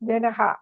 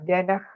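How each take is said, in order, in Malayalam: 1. അവസാന ഹ്-ന് ശേഷം ഒരു ഹ്രസ്വ സ്വരം ഉച്ചരിക്കുന്നു. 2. ഈ വാക്ക് ശുദ്ധമായ ഹ് ശബ്ദത്തിൽ അവസാനിക്കുന്നു.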